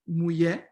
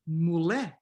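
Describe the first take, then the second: First: The middle sound is a y-like glide. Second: The middle sound is a plain l. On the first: "You have the glide mulher" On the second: "or just the L"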